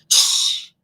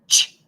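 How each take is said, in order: First: The ch sound is stretched out long. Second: The ch sound is short and sharp. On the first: The speaker calls it wrong. "if I try to stretch out the ch in cheese, it's gonna sound like ch, and it sounds crazy" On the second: The speaker calls it right. "it's one and done"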